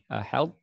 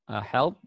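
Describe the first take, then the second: No difference in how they are said.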